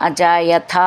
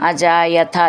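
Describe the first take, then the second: The two takes are said the same way.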